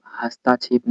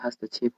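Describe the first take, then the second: First: "हस्ताक्षेप" with a long आ after त; wrong pronunciation. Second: "हस्तक्षेप" with no vowel stretched after त; correct pronunciation. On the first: Teacher showing students the error, "हस्ताक्षेप" with long ता. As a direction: stretch त to ता in "हस्ताक्षेप". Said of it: "हस्ताक्षेप नहीं होता". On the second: Teacher correcting for students, "हस्तक्षेप" with short त. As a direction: keep त short in "हस्तक्षेप", never ता. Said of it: "हस्तक्षेप होता है". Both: Shown as a demonstration.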